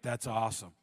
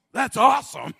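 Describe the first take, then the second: First: Distracted husband. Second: Enthusiastic awesome. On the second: Retold or imitated. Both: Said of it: "You're like".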